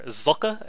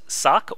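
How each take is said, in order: First: It is two syllables starting with a ts sound. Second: It is one syllable ending in a k sound. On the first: "if you're German like he is, that is how you should pronounce it" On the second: "I'm probably just going to stick to Sock because I'm American"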